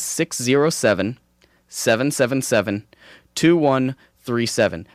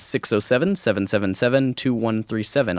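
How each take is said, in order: First: The number is said more slowly. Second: The number is said at normal speed.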